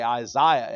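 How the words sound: The name is said the British way. "We say Isaiah in England"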